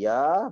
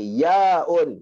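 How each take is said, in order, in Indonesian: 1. Kata ini berakhir dengan vokal terbuka. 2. Kata ini berakhir dengan bunyi 'un' tambahan. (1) "sebutan dia dalam Al-Quran adalah ya sahaja tanpa hamzah" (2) "Bunyi apa nama dia adalah yaun"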